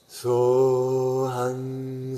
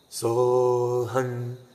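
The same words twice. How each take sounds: First: The sound is soft and resonates in the chest. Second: The sound resonates strongly in the throat. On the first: "come to the chest. We speak from the heart" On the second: "put more attention to our vocal cords, root sound in here"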